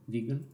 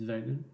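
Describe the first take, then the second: First: "vegan" with a long ee, VEE-gun; first syllable of "vegan" rhymes with "see". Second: "vegan" with a short e, as in "veg"; first syllable of "vegan" rhymes with "leg". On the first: Self-corrects pronunciation of vegan. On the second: Tries two pronunciations of vegan. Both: Real, not acted.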